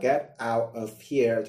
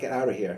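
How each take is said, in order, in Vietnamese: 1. Mỗi từ được nói riêng và rõ ràng. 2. Các từ nói liền nhau, âm được nối với nhau. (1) "thay vì các bạn đọc là get out of here" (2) "người ta là get out of here ... nó đọc luyến đi"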